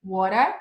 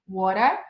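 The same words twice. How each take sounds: First: It is said in an Australian-type accent. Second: The same.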